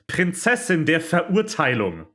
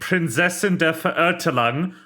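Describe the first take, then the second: First: It is said with a native German accent. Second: It is said with an American English accent. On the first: The speaker calls it right. "should be pronounced" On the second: The speaker calls it wrong. "The line"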